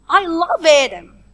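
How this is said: The word love carries the main stress. The feeling is love rather than hate or neglect. "I stress the word love"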